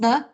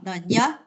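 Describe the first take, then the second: First: The n sound is plain, not palatalized. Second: The n sound is soft and palatalized. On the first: The speaker calls it wrong. "not N" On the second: The speaker calls it right. "this is palatalized or soft"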